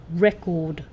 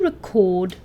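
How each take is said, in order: First: The stress is on the first syllable. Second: The stress is on the second syllable. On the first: It is used as a noun. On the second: It is used as a verb.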